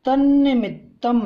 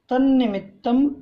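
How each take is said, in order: First: तन्निमित्तं louder with a rising end; pushed tanni-mittam; emphatic recitation. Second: तन्निमित्तं raised and rising again; repeated rising तन्निमित्तं; emphatic recitation. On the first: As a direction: lift तन्निमित्तं up. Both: Shown as a demonstration. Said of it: "शुद्ध उच्चारण के साथ".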